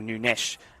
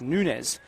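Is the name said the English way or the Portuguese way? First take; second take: Portuguese; English. First: The name is said with Portuguese pronunciation. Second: The name is said with English pronunciation.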